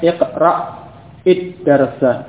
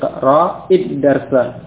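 First: The first word ends in a stop before the second. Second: The words run together with a short vowel, no stop. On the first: The speaker calls it wrong. "bukan iqra id-darsa ... sukun dulu kemudian id-darsa, tidak boleh" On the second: The speaker calls it right. "jadi iqra id-darsa"

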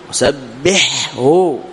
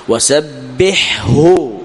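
First: The ḥ sound is clearly pronounced before the h. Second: The same.

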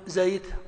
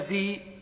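First: The first vowel is a fully open a. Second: The first vowel is a fully close i. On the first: "ما يقولون زيت" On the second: "ولا زي"

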